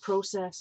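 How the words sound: It is said with a non-American pronunciation. "You can tell I haven't been in the U S in a long time. Gone back to saying process"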